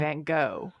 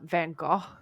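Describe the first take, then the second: First: It is said the American way. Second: It is said the British way.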